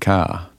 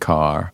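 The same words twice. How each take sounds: First: Australian accent, with the final R sound dropped. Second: American accent, with the final R sound pronounced. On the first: "we would say car" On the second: "you would say car"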